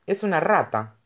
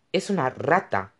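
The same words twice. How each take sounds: First: Hushed, knowing, a little cryptic; mysterious tone. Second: Said in the usual way. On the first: A narrator's reading. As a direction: say it like a secret only she knows. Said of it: "respondió en tono misterioso". (en tono misterioso) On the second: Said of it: "repeated plainly".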